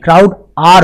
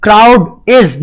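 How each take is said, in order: First: Slow, deliberate "are"; stress on "are". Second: Slow, deliberate "is"; stress on "is". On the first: Teacher giving the plural verb, stress on "are". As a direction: set out "are" as the correct word. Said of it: "crowd are होगा". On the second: Teacher rejecting the singular verb, stress on "is". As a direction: mark out "is" as the mistake. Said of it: "crowd is नहीं". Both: Shown as a demonstration.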